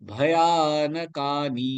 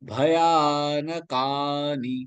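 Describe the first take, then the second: First: The middle vowels are said short. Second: The middle vowels are said long. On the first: The speaker calls it wrong. "சொல்லாம" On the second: The speaker calls it right. "பயான யா நெடில் எழுத்து. ந கா நெடில் எழுத்து"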